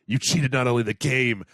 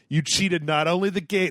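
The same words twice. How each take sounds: First: It is read in a put-on character voice. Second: It is read in his normal voice.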